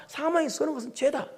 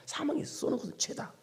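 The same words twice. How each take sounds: First: Said in the usual way. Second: 사망이 쏘는 것은 죄다 whispered, softer; whispered repeat. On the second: Shown as a demonstration. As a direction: breathe 사망이 쏘는 것은 죄다 as a hushed echo. Repeating the verse twice.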